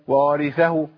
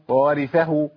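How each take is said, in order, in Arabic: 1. يُسمع واو واحد فقط في البداية. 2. يُسمع واو واحد فقط في البداية.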